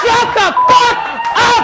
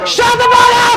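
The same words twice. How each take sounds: First: Laughing shout. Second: Furious shout at a heckler. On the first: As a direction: yell it again half laughing. Repeated at heckler. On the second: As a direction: scream it at the heckler. Heckler confrontation onstage. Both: Real, not acted.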